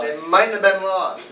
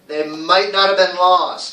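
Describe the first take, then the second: First: Might and not are contracted into one word. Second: Might and not are said as separate words.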